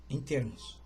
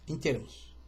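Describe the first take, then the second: No difference in how they are said.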